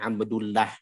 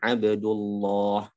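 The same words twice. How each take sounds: First: The l in Allah is thin and light. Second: The l in Allah is thick and full. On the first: The speaker calls it wrong. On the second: The speaker calls it right. "maka Allahnya dibaca tafkhim"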